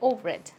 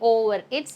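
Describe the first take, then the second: First: The two words are linked together. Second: The two words are said separately. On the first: The speaker calls it right. "These two get linked together" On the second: The speaker calls it wrong. "Instead of saying over it"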